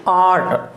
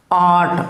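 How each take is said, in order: First: आर्ट said as आट with the r silent; right way. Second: आर्ट with the r sounded, the wrong way. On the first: Teacher corrects students: आर्ट as आट, r silent. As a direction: drop the r in आर्ट, say it as आट. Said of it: "आर्ट नहीं है ये". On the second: Teacher shows students the wrong आर्ट with r. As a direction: say आर्ट with a rolled r, as the mistake. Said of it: "not आर्ट". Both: Shown as a demonstration.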